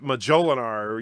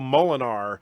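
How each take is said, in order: First: The word is said with four syllables. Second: The word is said with three syllables. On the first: "or Majolinar" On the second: "sometimes my tongue wants to go Molinar"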